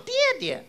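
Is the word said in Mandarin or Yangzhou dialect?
Mandarin. It is said with standard Mandarin pronunciation. "爹爹不叫爹爹"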